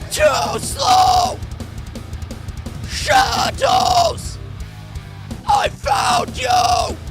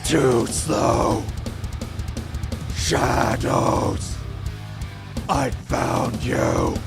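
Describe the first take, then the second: First: It is screamed without a guttural growl. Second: It is screamed with a deep guttural growl.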